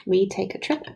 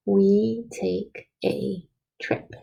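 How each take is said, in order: First: Said in the usual way. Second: Very slow, each word spaced out; slow dictation. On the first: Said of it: "I'm just saying it normal". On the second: Shown as a demonstration. Teacher dictating the sentence to children, very slowly. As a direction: dictate it slowly so kids can write along. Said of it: "see if you have it like I do".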